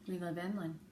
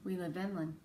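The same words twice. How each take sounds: The two takes are said the same way.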